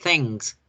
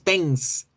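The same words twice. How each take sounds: First: "thanks" with a velar ng, like thengks; "thanks" with humming ng before k; correct pronunciation. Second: "thanks" with a front n, like thens; "thanks" without the velar ng; wrong pronunciation. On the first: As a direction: model "thanks" with the n at the back of the mouth. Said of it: "No, thanks, mm". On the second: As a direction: mispronounce "thanks" using tongue-tip n. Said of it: "No decimos thanks". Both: Shown as a demonstration.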